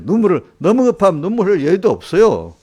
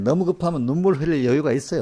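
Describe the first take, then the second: First: 너무 punched, much louder and higher; emphatic answer. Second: Said in the usual way. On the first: Shown as a demonstration. Preacher answering his own question with a loud emphatic 너무. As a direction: declare 너무 급하면 with force. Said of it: "저도 그래요".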